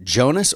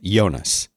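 First: The name is said the plain English way. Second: The name is said the German way, like Yonas. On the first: "Is it Jonas" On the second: "should I be all dark at like TV show Netflix dark and say Jonas?"

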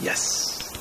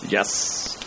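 First: The word is said softly. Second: The word is said loudly.

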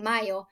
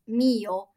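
First: The first syllable sounds like 'may'. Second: The first syllable sounds like 'me'. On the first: The speaker calls it wrong. "I kept saying Mayo" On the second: The speaker calls it right. "someone corrected me, like, no, it's Mio"

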